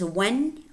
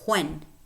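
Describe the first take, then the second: First: The word begins with a plain w sound. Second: The word begins with a breathy hw sound.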